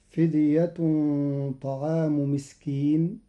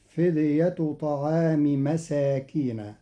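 First: "فدية" without tanween, "طعام" in genitive; "مسكين" read singular without nunation change; Qalun reading. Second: "مساكين" plural with open nun, slow; "فدية" without tanween before "طعام"; Qalun reading. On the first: Teacher demonstrating Qalun's reading of "فدية طعام". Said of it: "بغير تنوين فدية". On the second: Teacher slowly reciting Qalun's "فدية طعام مساكين". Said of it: "فتصير الجملة". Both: Shown as a demonstration.

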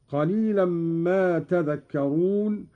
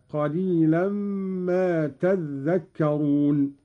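First: تذكرون with an undoubled dhal; measured verse, passing lightly over dhal in تذكرون; single light dhal. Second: تذكرون said as tadhdhakkarun; doubled dhal. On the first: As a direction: recite تذكرون as tadhakkarun. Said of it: "قرأ قالون بتشديد الذال". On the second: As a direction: slowly hold the geminated dhal in تذكرون. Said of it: "قرأ قالون بتشديد الذال هكذا". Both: Shown as a demonstration.

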